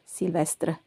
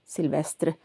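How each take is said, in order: First: It is said with a French pronunciation. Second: The same.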